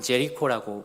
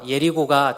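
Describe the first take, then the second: First: The word begins with a J sound. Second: The word begins with a Y sound. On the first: This is how Westerners say it. The speaker calls it wrong. "서양 사람들은 제리코라고 부르게 됩니다" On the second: This is closer to the original language. The speaker calls it right. "더 발음이 원어와 비슷한데"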